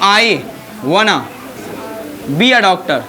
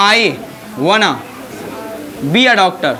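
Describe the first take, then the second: First: Want and to run together into one word. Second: The same.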